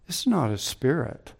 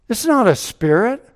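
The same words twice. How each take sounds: First: Softer, settling down, stress on "not"; quiet restatement. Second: High and loud, punching "not"; emphatic proclamation. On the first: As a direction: let "not" land gently after the big build. Quiet restatement after the climax. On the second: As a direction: proclaim "not" hard, the peak of the sermon. Preaching climax on resurrection. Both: Acted.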